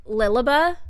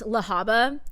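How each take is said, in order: First: Lilaba starting like Lily, LIL-a-ba; mistaken pronunciation. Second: Lahaba with an open AH in the middle; correct pronunciation. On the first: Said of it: "I pronounced it". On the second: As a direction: say "Lahaba" as la-HAH-ba. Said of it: "I know it's pr-, pronounced Lahaba". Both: Shown as a demonstration.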